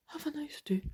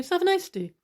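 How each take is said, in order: First: The same sign-off, breathed as a whisper; whispered goodbye. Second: A bright, higher sign-off; higher, louder farewell, a little mocking; cheery goodbye. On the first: Retold or imitated. Repeating the stranger's farewell under her breath, whispered. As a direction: whisper it to yourself, bemused. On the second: Quoting the friendly stranger's parting words, bright and higher.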